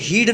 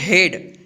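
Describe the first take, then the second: First: The vowel is a long 'ee' sound. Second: The vowel is a short 'e' sound. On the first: The speaker calls it wrong. "इसको हीड नहीं पढ़ेंगे" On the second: The speaker calls it right. "इसको क्या पढ़ते हैं, हेड"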